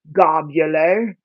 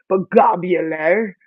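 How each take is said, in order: First: Globular, drawn out slowly in a mock British accent; a playful British lilt on globular. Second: Said in the usual way. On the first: Reading the seed packet aloud, slipping into a British accent. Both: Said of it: "I don't know why this became British".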